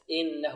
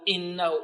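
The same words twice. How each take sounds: First: The opening glottal stop is soft and smooth. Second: The opening glottal stop is jabbed out hard. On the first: The speaker calls it right. "يأتي بالهمزة سهلة سلسة" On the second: The speaker calls it wrong. "لا نلكز الهمزة، لا نقول إنه"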